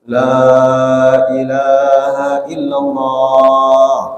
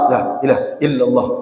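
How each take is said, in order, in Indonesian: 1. Suku kata pertama la dibaca panjang. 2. Suku kata pertama la dibaca pendek. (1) "Panjang itu awalnya" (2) "Kalau la-nya dipendekkan"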